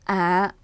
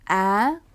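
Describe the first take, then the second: First: The pitch stays at the very lowest level. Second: The pitch goes high and rises. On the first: "가장 낮은 톤이에요" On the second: "그 모음을 좀 더 높은 톤으로 발음해야 된다는 뜻입니다"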